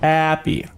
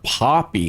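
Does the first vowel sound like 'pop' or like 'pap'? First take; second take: like pap; like pop. First: The first vowel sounds like the one in 'pap'. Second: The first vowel sounds like the one in 'pop'. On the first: The speaker calls it right. "It's Pappy" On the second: The speaker calls it wrong. "It's not Poppy"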